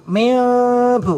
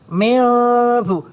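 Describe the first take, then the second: First: The lips stay slightly open on the m sound. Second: The lips stay slightly open on the m sound.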